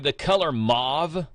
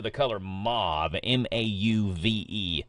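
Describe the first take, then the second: First: "mauve" drawn out slowly, rhymes with "Bob"; slow stress on mauve. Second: "mauve" said slowly then spelled letter by letter; slow "mauve", then each letter M A U V E. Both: Shown as a demonstration. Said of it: "have you heard of the word".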